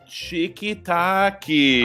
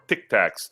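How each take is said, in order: First: It is said with an exaggerated Brazilian accent. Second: It is said with a plain American accent.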